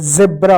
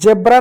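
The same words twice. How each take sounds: First: The word begins with a 'z' sound. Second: The word begins with a 'j' sound. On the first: The speaker calls it right. "जेब्रा होता है" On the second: The speaker calls it wrong. "जेब्रा नहीं होता है"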